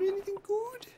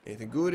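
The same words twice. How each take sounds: First: Squeaky high voice. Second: Said in the usual way. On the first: Pretend. Repeats the question, playful voices.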